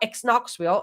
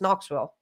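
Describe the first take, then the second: First: The K at the start is pronounced. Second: The K is silent; it starts with N. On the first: The speaker calls it wrong. "it's not ex Knoxville" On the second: The speaker calls it right. "it's just Knoxville"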